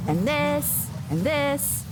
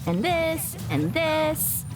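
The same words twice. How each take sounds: The two takes are said the same way.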